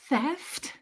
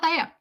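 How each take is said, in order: First: The word ends with a clear final T sound. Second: The word ends without a final T sound. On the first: The speaker calls it right. "that has a T on the end" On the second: The speaker calls it wrong. "a lot of that"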